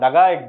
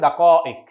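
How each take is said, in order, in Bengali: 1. মাঝের ব্যঞ্জনটি g ধ্বনি। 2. মাঝের ব্যঞ্জনটি k ধ্বনি। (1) "আঞ্চলিক আরবিতে ... দাগাইক বলে, কফকে গয়নের মতো উচ্চারণ করে" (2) "মিনিটের বহুবচন হচ্ছে দাকাইক"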